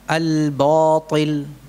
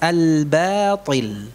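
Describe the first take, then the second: First: The b is pronounced thick and heavy. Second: The b is pronounced thin and light. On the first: The speaker calls it wrong. "Ini salah" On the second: The speaker calls it right. "Yang benar tetap tipis"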